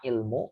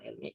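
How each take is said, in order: First: The word ends with a 'u' vowel. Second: The word ends with an 'i' vowel. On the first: The speaker calls it right. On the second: The speaker calls it wrong. "bukan ilmi"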